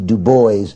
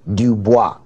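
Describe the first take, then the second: First: The name is said with an English pronunciation. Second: The name is said with a French pronunciation. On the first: The speaker calls it right. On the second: The speaker calls it wrong.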